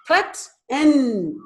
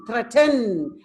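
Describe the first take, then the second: First: THREAT, EN as two separate beats; THREAT, EN with a clear gap between syllables; split into syllables. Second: Said in the usual way. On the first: Shown as a demonstration. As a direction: break it apart: THREAT, then EN. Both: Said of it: "two syllables".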